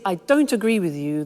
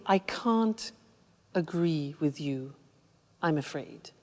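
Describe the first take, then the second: First: Mildly aggressive objection; a touch of confrontation; aggressive disagreement. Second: Soft, low, polite refusal; courteous, softened objection; polite disagreement. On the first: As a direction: disagree bluntly, without softening. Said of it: "that's quite aggressive". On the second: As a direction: disagree politely, dropping lower and quieter. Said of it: "To be polite". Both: Shown as a demonstration.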